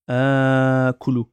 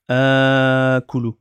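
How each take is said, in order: Both takes have the same delivery.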